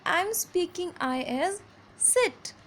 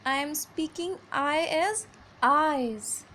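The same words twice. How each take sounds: First: "sit" said quick and relaxed with a short "i". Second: "eyes" drawn out slowly with a wide "ai"; broad long I. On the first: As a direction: keep the mouth loose and clip "sit". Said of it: "in a very relaxed mode". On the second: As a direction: stretch "eyes" with the mouth wide open. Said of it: "I have broadened my mouth". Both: Shown as a demonstration.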